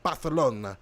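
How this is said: The c is said as a th sound. "They say like th"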